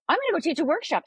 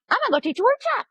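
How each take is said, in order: First: Higher, lightly voiced breezy friend; a hint of carefree boldness; mild mock of Sharon's casual announcement; imitating breezy confidence. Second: Much higher, louder chirpy imitation; hammed-up carefree announcement; exaggerated mimic of Sharon's breezy plan; mocking naive boldness. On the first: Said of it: "though, was like". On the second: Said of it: "And she just went".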